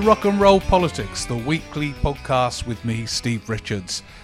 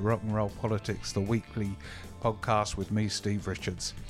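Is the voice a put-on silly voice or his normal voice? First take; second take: silly voice; normal voice. First: It is said in a put-on silly voice. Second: It is said in his ordinary natural voice. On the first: He is briefly pretending to be someone else. "I don't know why I did that in a silly voice briefly" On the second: He is speaking as himself. "That's it"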